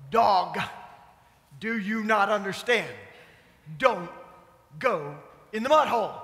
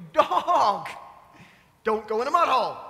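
First: A mild scold, lightly voiced; fussing at the dog. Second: Half-laughing, fed-up yell at the dog; exasperated scold. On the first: Owners fussing at the muddy dog, mild scold. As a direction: tell the dog off, half-hearted. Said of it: "We fuss". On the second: Retold or imitated. Owners fed up with the dog, laughing mock scold. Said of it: "we get all upset".

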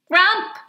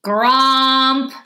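First: Tiny, high-pitched little grump; small voice. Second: Loud, drawn-out boom, pitched up; booming creature. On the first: Shrinking grumbly protesting as mom and child grin, small voice. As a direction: squeak it out short and high. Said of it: "said in a small voice". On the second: Grumbly creature grumping at a child and mom, booming. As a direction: boom it out, long and held. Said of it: "the grumbly boomed again". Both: A narrator's reading.

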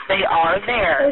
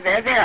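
First: Slow, deliberate and calming; slow reassurance. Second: Said in the usual way. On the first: Real, not acted. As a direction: spell it out slowly to soothe her. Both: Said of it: "I promise they are right there".

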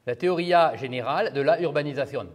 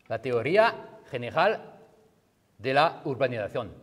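First: Spanish title with French sounds; French accent. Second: Put-on Spanish accent, phrase by phrase. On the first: Lecturer redoing the title for French students, French accent. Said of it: "je vous fais en français". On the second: Lecturer giving the book's title in Spanish accent. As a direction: read the title with Spanish sounds. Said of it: "j'ai un hyper bon accent, euh, espagnol". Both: Shown as a demonstration.

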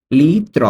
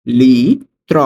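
First: Said in the usual way. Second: "লিত্র" stretched loudly into two parts, long "li", then "tro"; slow dictation of "লিত্র" for learners; syllable by syllable. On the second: Shown as a demonstration. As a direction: draw out "li", pause, then "tro". Teacher repeats word by syllables.

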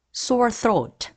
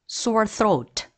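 No difference in how they are said.

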